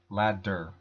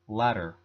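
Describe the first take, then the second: First: The middle consonant is a full, clear D. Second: The middle consonant is a quick flap. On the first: This is not how natives say it at normal speed. The speaker calls it wrong. "not ladder" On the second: This is how it sounds in normal-speed native speech. The speaker calls it right. "When a native English speaker is talking at normal speed, they would say ladder"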